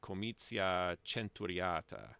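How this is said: It is said in an Italian-style Latin pronunciation. It follows the pronunciation used in church. "in church Latin, it would be comitia centuriata. It would do a ch there"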